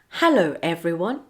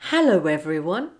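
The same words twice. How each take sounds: First: The words are said separately, without a linking w. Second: The words run together with a linking w. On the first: "without linking" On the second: "linking w"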